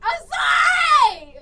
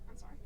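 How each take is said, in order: First: It is said much louder, almost shouted. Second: It is said at a normal, quieter volume.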